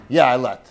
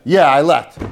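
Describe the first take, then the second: First: "Yeah, I let" dropped lower and flatter, not really meaning it; grudging yes. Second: Louder, keen "Yeah, I let" meaning a real yes; eager yes. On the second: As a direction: say "Yeah, I let" as if truly agreeing. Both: Shown as a demonstration. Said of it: "on the tone of voice that you say it".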